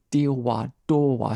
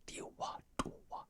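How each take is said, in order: First: Said in the usual way. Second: Whispered, no voice at all; unvoiced whispered tongue demo; silent mouthing. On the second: Shown as a demonstration. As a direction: shape the syllables silently, only breath. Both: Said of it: "it's no vocals".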